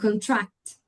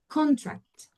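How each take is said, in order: First: The stress is on the second syllable. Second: The stress is on the first syllable.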